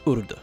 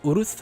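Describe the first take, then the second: First: The name ends with a hard d sound. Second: The name ends with a th sound. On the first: This follows the spelling the show uses. "indicating that it is a hard D sound at the end" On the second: This follows the authentic original spelling. "it should have that th sound at the end of her name"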